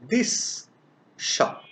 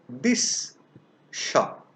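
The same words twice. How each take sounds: First: The words are separate and the s sound is clear. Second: The words are separate and the s sound is clear.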